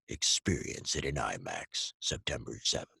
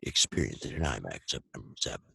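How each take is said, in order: First: It is said at a normal trailer pace. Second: It is said very fast.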